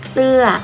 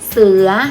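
First: The word has a falling tone. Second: The word has a rising tone. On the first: It means a piece of clothing. "เปลี่ยนวรรณยุกต์เป็นรูปโท" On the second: It means a tiger. "ตอนแรกเป็นเสียงวรรณยุกต์เสียงจัตวาไม่มีรูปวรรณยุกต์"

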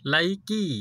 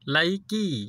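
First: The name is said as 'Laiki'. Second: The same.

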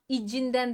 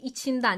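First: The middle consonant is softened to a voiced sound. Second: The middle consonant stays unsoftened and voiceless. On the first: The speaker calls it wrong. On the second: The speaker calls it right.

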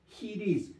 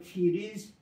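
First: The word begins with an h-like sound. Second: The word begins with an f sound. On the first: The speaker calls it right. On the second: The speaker calls it wrong.

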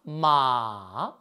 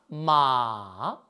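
First: The pitch goes low and dips, held long. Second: The pitch goes low and dips, held long.

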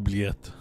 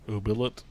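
First: The word is pronounced the French way. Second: The word is pronounced in a mangled way. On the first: The speaker calls it right. "how do you pronounce it in French?" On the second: The speaker calls it wrong. "the weirdest fucking pronunciations of it"

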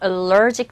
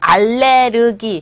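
First: It is said as English 'uh-LER-jik'. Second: It is said as Korean 'al-le-reu-gi'. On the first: The speaker calls it right. "정확한 영어식 발음은 allergic to" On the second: The speaker calls it wrong. "발음이 또 알레르기. 어디서 나온 발음인지 정말 알 수 없는 그런 발음"

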